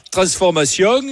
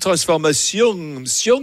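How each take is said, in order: First: TRANSFORMATION with a marked regional ending, rising; marked accent ending. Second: TRANSFORMATION drawn out slowly, small accent lilt on SION; shamefaced accent. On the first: Host showing caller what he doesn't say, marked accent on TRANSFORMATION. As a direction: give TRANSFORMATION an openly accented last syllable. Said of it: "t'as les petites intonations à la fin". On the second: Host imitating caller's shamefaced accent, slow TRANSFORMATION with falling end. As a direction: let a half-hidden accent slip out on the final SION. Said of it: "t'as l'accent honteux".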